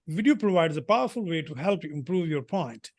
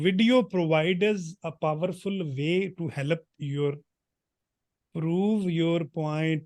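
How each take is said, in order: First: It is spoken in a British-like English accent. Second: It is spoken in a heavy Punjabi accent. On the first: The speaker calls it right. "वो अंग्रेजों की तरह ही बोल रहा हूँ मैं।" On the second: The speaker calls it wrong. "ये मैं इंग्लिश पंजाबी में बोल रहा हूँ, तो ऐसे इंग्लिश बिल्कुल नहीं बोलनी"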